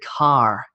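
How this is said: The final r sound is clearly pronounced. "whereas Americans tend to go R, R, like I have a red car"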